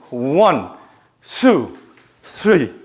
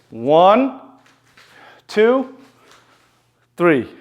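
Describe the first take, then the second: First: The numbers are counted at medium speed. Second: The numbers are counted slowly.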